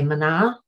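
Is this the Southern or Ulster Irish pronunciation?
Southern. It is said with a Southern Irish n sound.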